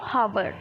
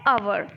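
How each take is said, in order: First: The word begins with an h sound. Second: The word begins directly with a vowel. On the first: "लेकिन लिखते क्या हो" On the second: "लेकिन बोला क्या जाता है"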